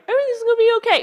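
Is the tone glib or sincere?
glib. It is said in a glib, dismissive tone.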